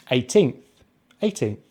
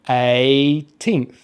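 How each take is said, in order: First: Said in the usual way. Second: Put-on "Eighteenth" as long A, pause, teenth; syllable by syllable. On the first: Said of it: "we just say the diphthong A". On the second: Shown as a demonstration. Teacher sounding out for learners, "Eighteenth" in two parts. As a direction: stretch the A of "Eighteenth", then add teenth. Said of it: "we just say the diphthong A as in pay".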